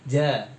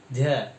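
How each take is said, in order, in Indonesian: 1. Ada napas yang terdengar keluar bersama bunyinya. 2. Ada napas yang terdengar keluar bersama bunyinya.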